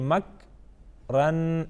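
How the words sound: There is a break between the two syllables.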